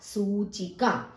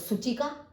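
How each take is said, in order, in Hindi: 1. पहला स्वर लंबा बोला जाता है। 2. पहला स्वर छोटा बोला जाता है। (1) "सा पर बड़े ऊ की मात्रा है तो उच्चारण भी वैसे ही होगा" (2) "छोटे ऊ की मात्रा होती तो"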